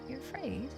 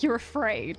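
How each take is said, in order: First: It sounds gentle and sympathetic. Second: It sounds condescending and dismissive. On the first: It acknowledges the listener's fear kindly. The speaker calls it right. "I want to be like" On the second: It belittles the listener's fear. The speaker calls it wrong. "I don't want to say that in a condescending way"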